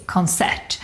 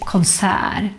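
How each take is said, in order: First: "concert" as kon-SERT, final t sounded; as written. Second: "konsert" as kon-SÄÄR, t dropped; long open vowel ending "konsert", no final t; Stockholm pronunciation. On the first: Teacher showing the spelling, "concert" with final t. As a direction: keep the t at the end of "concert". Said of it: "It's written like this". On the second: Teacher showing Stockholm usage, "konsert" without the t. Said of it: "the most common way to say it". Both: Shown as a demonstration.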